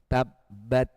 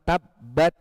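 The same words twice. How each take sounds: First: The final t is released with a hiss. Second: The final t is held with no hiss. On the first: The speaker calls it right. "harus ada desisnya. Tabbat begitu" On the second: The speaker calls it wrong. "Kalau cuma tabbat itu syiddah, hamesnya belum keluar"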